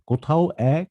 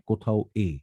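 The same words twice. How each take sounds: First: এ said wide open as "অ্যা", rising; open 'অ্যা' sound. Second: এ said narrow as "e", falling; closed 'e' sound. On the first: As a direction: say এ as an open "æ", as in cat. (এ-এর উচ্চারণ খোলা "অ্যা") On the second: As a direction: say এ as a pure closed "e". (এ-এর উচ্চারণ সংবৃত "এ") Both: Shown as a demonstration. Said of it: "দুটো উচ্চারণ হয়ে থাকে".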